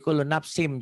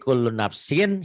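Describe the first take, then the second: First: The word ends with an m sound. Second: The word ends with an n sound. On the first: "Berubah menjadi kullu nafsim jadi M" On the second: "sin kan N"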